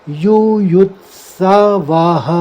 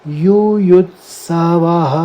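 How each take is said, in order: Both takes have the same delivery.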